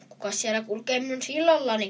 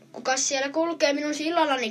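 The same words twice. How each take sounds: First: A mild roar from the troll under the bridge. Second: Higher, louder roared challenge; troll roaring. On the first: Troll guarding his bridge challenges the little goat, mild roar. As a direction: read it as a lightly roared challenge. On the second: Troll challenges the bigger goat on his bridge, loud roar. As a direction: bellow it down from under the bridge, a bit hammed-up. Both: A narrator's reading. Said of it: "karjui Peikko".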